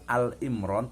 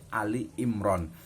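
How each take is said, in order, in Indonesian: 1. Kata pertama diucapkan sebagai satu suku kata. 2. Kata pertama diucapkan sebagai dua suku kata. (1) "Jangan sampai salah mengucapkan ya, bukan Al Imran" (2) "tetapi Ali Imran"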